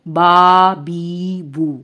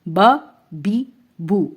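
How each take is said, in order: First: Each vowel is drawn out long. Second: Each vowel is cut short. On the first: The speaker calls it wrong. "अगर हम इसको लंबा करेंगे तो वो" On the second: The speaker calls it right. "बस इतनी आवाज"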